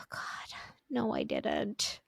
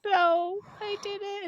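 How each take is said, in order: First: Whispered, hushed denial. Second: Higher, insistent denial; higher protest. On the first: Mom whispering her denial to her daughter in the dark. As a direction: breathe it out in a spooked whisper. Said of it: "And I was like". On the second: Mom protesting to her daughter, voice pitched higher. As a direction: squeak the denial up high. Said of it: "I was like". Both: Retold or imitated.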